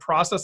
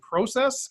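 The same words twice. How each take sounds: First: It is said with an American pronunciation. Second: It is said with a Canadian pronunciation. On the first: The speaker is passing as American. "that might be the first time he ever said process" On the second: The speaker reveals a Canadian background. "and not process"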